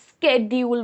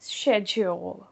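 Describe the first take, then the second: First: It is said in an American accent, with 'sk'. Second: It is said in a British English accent. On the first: "American English में इससे स्केड्यूल बोलते हैं" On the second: "but उनका accent change हो जाता है तो it just like you know शेड्यूल"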